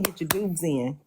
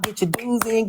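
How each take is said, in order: First: Soft fading repeat. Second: Said in the usual way. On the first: Shown as a demonstration. Host reminding chat about dues, softly trailing off. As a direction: Get your dues in, dropped much softer and lower.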